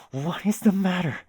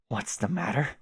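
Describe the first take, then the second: First: What is the matter said higher and louder, stress on the; emphatic repeat. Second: Said in the usual way. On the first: Acted. Jake pressing Jane about what is wrong, emphatic and high. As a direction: lean hard on "the" and lift it up.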